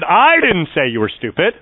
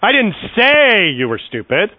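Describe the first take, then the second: First: The stress falls on the word I. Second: The stress falls on the word say. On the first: Someone else said it. "that meant someone else said that you were stupid" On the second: It was implied rather than said. "I just inferred you were stupid"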